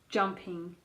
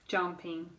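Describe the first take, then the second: No difference in how they are said.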